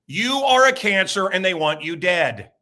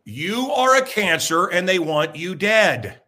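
First: Each word laid out slow and heavy; you are a cancer, spoken slowly; slow, deliberate statement. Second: Slower still, pressing each word; slow repeat for emphasis. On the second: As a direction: repeat it slower, stressing a cancer. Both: Shown as a demonstration.

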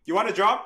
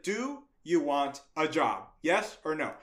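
First: Loud, higher, punchy question; abrupt offer. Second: Slow, word-by-word question; slow deliberate repeat. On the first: Boss offering the kid a job, loud and abrupt. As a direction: fire off "You want a job?" bluntly. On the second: Boss repeating the offer to a baffled kid, slow and deliberate. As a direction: spell out "Do you want a job" slowly. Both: Retold or imitated.

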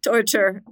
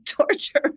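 First: Said in the usual way. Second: Laughing. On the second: Real, not acted.

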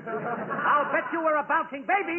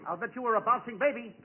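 First: Slower, more emphatic delivery; insistent repeat. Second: Said in the usual way. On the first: Acted. Costello repeating an unheard joke, slow and insistent. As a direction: push the joke out slowly and firmly.

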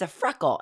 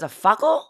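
First: Said in the usual way. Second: "fuckle" with the R dropped, higher and louder, questioning; child's mispronunciation. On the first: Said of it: "And I said". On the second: Retold or imitated. Small daughter asking mommy about a freckle, "fuckle" without its R. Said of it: "she can't pronounce her R's".

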